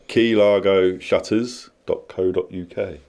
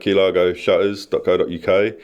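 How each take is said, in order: First: It is said more slowly. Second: It is said at normal speed.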